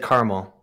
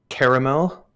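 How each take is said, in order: First: Caramel is pronounced the American way. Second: Caramel is pronounced the British-influenced way. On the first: This is how the speaker used to say it. "I used to say caramel" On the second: This is how the speaker says it now. "I changed the way I say it"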